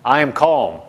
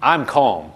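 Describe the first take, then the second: First: "I am calm" said low and firm, uncontracted; deliberate, insistent "I am calm"; emphatic declaration. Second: Low, calm self-assurance; calm declaration. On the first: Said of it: "say even more emphatically". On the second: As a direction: say "I'm calm" low and settled, without pushing. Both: Shown as a demonstration.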